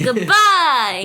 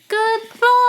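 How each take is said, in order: First: It is said with high energy. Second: It is said with low energy.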